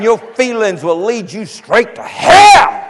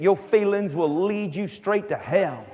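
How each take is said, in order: First: It is said forcefully, in an intense preaching voice. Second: It is said in a plain, calmer preaching voice.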